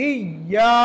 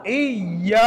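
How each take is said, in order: The two takes are said the same way.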